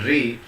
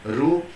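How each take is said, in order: First: The vowel ends with an 'ee' sound. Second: The vowel ends with an 'oo' sound. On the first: "some people are pronouncing this as Lri, and this Ru they are pronouncing as Ri" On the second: "you can spell as Ru and Ri"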